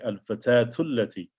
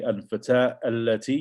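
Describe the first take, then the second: First: The final vowel runs straight into allati. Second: Allati starts apart, with its own glottal stop. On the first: The speaker calls it right. "you say al-fatatu allati" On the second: The speaker calls it wrong. "you wouldn't say al-fatah allati"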